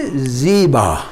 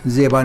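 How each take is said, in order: First: ज़ीबा with a long ee, zee-ba, drawn out slowly; Persian ziba. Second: ज़ेबा with an ay vowel, zay-ba, the Urdu way; Urdu zeba, marked wrong. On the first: Teacher shows students the Persian ज़ीबा slowly. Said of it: "फ़ारसी में इसकी pronunciation है". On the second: Teacher gives the Urdu ज़ेबा as the mistake to avoid. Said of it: "ज़ेबा नहीं". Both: Shown as a demonstration.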